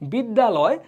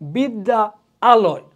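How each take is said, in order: First: One word, the two a sounds merged. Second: Two parts said apart, both a sounds kept. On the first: The speaker calls it right. "দুইটাকে একত্রিত করে ফেলি" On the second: The speaker calls it wrong. "আলাদা আলাদা করে"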